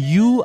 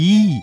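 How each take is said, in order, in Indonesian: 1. Vokalnya bunyi oo belakang yang biasa. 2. Vokalnya bunyi ee depan yang dilebarkan. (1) "banyak kan orang kita menyebutnya yu" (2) "atau yi"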